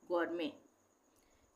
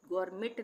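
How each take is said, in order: First: The final t sound is silent. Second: The final t sound is pronounced. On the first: The speaker calls it right. "टी silent हो जाएगा" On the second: The speaker calls it wrong. "इसको हम गौरमेट नहीं पढ़ेंगे"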